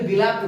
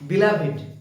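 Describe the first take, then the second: First: The ending is said without a separate vowel. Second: The ending is said as a separate syllable. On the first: The speaker calls it wrong. "অনেকেই উচ্চারণটাকে বিলাভড বলে" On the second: The speaker calls it right. "Actual উচ্চারণটা হচ্ছে বিলাভেট"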